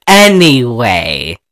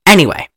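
First: Slow, low "anyway"; long, lowered, deliberate restart; drawn-out resumption. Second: Said in the usual way. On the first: Real, not acted. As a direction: stretch out "anyway" to get back on track. Pointedly restarting after laughing at interruption.

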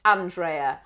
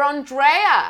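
First: Andrea as AN-dray-uh; first pronunciation. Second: Andrea as on-DRAY-uh, drawn out; alternative pronunciation. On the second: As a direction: say Andrea slowly with open "ahn" and stressed "dray". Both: Shown as a demonstration. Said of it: "Or Andrea".

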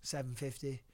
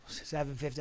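First: "Seven fifty?" asked with a rising, unsure tune; softly asking "Seven fifty?"; unsure question. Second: "Seven fifty." settled with a firm falling tune; confirming the number to himself; "Seven fifty." stated with a fall; sure statement. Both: Retold or imitated. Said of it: "what was it?".

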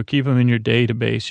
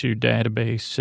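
First: Long A opening "database", as in day. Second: Short, open A opening "database", unlike day; database with DAT. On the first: Picard telling Data to keep anecdotes, "database" said DAY-tuh-base. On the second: Picard correcting himself to Data, "database" said DAT-uh-base. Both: Shown as a demonstration. Says the word two ways.

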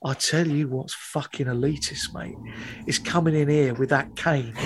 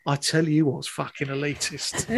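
First: Low, menacing mock hard man; a hint of a quiet thug squaring up; hard man threat. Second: Low, quiet mock hard man, laughing; family catchphrase. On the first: Hard man to the pretentious student, low quiet menace. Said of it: "clearly hard as nails". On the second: Teller repeating the household saying, low and laughing. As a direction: quote the thug line with a grin. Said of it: "a saying in my house".

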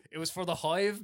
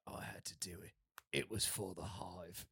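First: Said in the usual way. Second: Very low, quiet action-hero imitation; solemn film-hero line. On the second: Mimicking the hero with guns pointed at him, solemn low voice. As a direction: drop it low and hushed, mock grave. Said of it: "and he's like".

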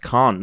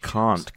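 First: Can't said louder and firmer; stress on Can't. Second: Said in the usual way. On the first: Shown as a demonstration. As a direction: punch the t in Can't. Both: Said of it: "Not can".

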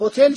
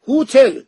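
First: Said in the usual way. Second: هوتل with a long oo in the first syllable; old-fashioned HOOTEL. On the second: Shown as a demonstration. Puzzled traveller repeats the book's word, هوتل said "hoo-tel". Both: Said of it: "تو کتابش هم نوشته هوتل".

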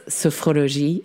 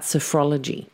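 First: "sophrologie" said the French way; French accent. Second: Said in the usual way. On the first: Retold or imitated. Host quoting her guest's name for the method, French accent. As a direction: imitate a French pronunciation of "sophrologie". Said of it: "so much nicer in a French accent". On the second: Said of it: "or as Dominique says".

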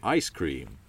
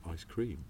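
First: Ice cream with the weight on Ice; ICE stressed first. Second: Ice cream with the weight on cream; cream stressed last. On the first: Stress Ice to show the American emphasis. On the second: Stress cream to show the British emphasis. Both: Shown as a demonstration. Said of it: "we always just go".

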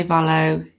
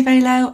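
First: Valo said "VAL-oh"; VAL-oh pronunciation. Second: Valo said "VAY-loh"; VAY-loh pronunciation. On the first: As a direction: say Valo with a short "a", as in "valley". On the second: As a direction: say Valo with a long "ay", as in "day". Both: Shown as a demonstration. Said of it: "I've heard people say Valo".

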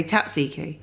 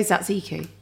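First: Tatsiki with a hard t first; alternative pronunciation. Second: Tzatziki said as sat-SEE-kee; soft-start pronunciation. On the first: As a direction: say tatsiki as tat-SEE-kee. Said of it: "Do you say tatsiki". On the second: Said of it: "how do you say". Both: Shown as a demonstration.

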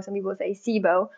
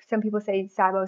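First: Sibo said with a long E, SEE-bo; first syllable of sibo like "see"; pronounced "SEE-bo". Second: Sibo said with a long I, SIGH-bo; first syllable of sibo like "sigh"; pronounced "SIGH-bo". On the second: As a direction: say sibo as SIGH-bo, rhyming with "eye". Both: Shown as a demonstration.

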